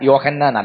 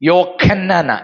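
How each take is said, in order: First: The middle consonant is a soft h sound. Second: The middle consonant is a raspy kh sound. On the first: This is the local language form. The speaker calls it wrong. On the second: This is the original language form. The speaker calls it right.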